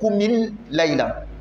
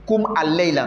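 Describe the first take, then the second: First: The 'a' is dropped; an 'i' links the words. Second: The 'a' before the 'l' is pronounced separately. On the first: The speaker calls it right. "On va dire koumil layla" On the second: The speaker calls it wrong. "Ils vont dire koum al-layla. Non"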